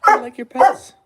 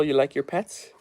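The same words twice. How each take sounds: First: Much higher and louder, squealing sing-song; excited dog talk. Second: Said in the usual way. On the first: Real, not acted. Owner gushing over his dog Layla, high and bright. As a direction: gush at the dog like a puppy.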